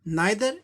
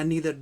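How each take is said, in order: First: The first vowel sounds like 'eye'. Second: The first vowel sounds like 'ee'. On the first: "नाइदर या नीदर दोनों ठीक है" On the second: "ज़्यादातर Americans नाइदर को नीदर की तरह उच्चारण करते हैं"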